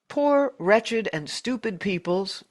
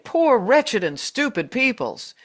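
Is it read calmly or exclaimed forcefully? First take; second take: calmly; exclaimed. First: It is read in a calm, plain way. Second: It is exclaimed loudly with strong force.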